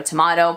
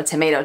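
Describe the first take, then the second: First: "tomato" said to-MAH-to; "tomato" with AH in the middle; broad AH vowel. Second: "tomato" said to-MAY-to; "tomato" with a long A in the middle; long A vowel. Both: Shown as a demonstration. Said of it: "I've always said".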